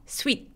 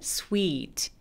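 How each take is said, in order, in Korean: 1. 모음이 짧아요. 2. 모음이 길어요. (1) "아니고" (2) "장음으로 소리가 나는 거"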